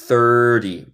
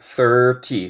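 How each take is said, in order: First: The middle t is a quick tapped sound. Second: The middle t is a clear t sound.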